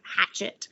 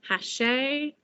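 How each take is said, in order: First: It is said with an American pronunciation. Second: It is said with a French pronunciation. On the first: "I don't know if we've butchered it in America" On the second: "because it's French"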